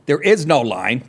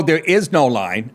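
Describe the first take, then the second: First: "is" rising in "There is no line"; insistent "There is no line"; stress on is. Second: "is" lifted and slow in "there is no line"; emphatic "there is no line"; stress on is. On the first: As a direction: stress the "is" again firmly. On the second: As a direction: lean on "is". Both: Real, not acted. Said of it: "I stress that on this show".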